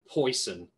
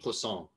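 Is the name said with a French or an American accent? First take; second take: American; French. First: The name is said with an American pronunciation. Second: The name is said with a French pronunciation. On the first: "The American way of saying it would be" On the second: "That's the French way of saying it"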